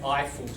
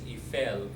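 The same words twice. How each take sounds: First: It is said with an English pronunciation. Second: It is said with a French pronunciation. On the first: "in English they say Eiffel Tower, which is actually wrong" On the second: "there's Eiffel in French"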